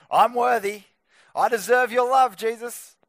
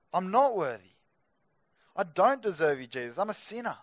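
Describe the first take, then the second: First: Loud, mock-entitled claim; raised, hammed-up self-righteous voice. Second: Mildly acted humble admission; understated, earnest plea of a sinner; humble confession. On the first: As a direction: act out someone proudly demanding what they deserve. Acting out a self-righteous approach to Jesus. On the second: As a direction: confess it to Jesus without any boasting. Acting out a humble approach to Jesus.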